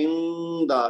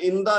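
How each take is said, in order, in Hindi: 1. n ध्वनि थोड़ी देर रोकी जाती है। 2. n ध्वनि जल्दी से निकल जाती है। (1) "नून पे थोड़ा रुकना है" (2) "इसको इंदा नहीं कहना हमने"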